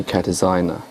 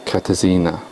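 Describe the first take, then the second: First: Katarzyna with the middle said "zine-a"; correct pronunciation. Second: Katarzyna with the middle said "zee-na"; wrong pronunciation. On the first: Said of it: "whereas I think it's actually Katarzyna". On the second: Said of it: "I think I say Katarzyna, whereas I think it's actually". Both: Shown as a demonstration.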